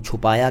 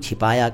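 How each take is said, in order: First: The first vowel is a 'u' sound. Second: The first vowel is an 'i' sound. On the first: This is the Urdu form of the word. "Urdu में हम छुपाया कहते हैं" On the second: This is the Hindi form of the word. "Hindi में हम छिपाया कहते हैं"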